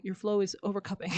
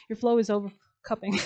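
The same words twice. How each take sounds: First: Said in the usual way. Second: "Your flow is overcupping" said again louder with a grin, leaning on "flow"; playful emphasis. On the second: Shown as a demonstration. Reader savoring her own tarot pun, punching "flow".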